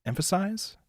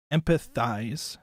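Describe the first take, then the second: First: "Emphasize?" tried out with a questioning rise. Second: "Empathize" drawn out slowly, p and th sounded clearly; slow careful empathize. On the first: Unsure streamer asking chat, emphasize with a rise. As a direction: wonder aloud if "Emphasize" is right. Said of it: "It's a weird word to say". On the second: Correcting himself for chat, slow careful empathize. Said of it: "or are you supposed to emphasize". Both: Shown as a demonstration.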